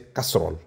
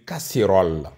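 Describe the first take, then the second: First: The word is said without a clear é vowel. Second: The word is said with a clear é vowel. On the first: The speaker calls it wrong. "j'ai prononcé casserole" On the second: The speaker calls it right. "il me disait de dire casserole"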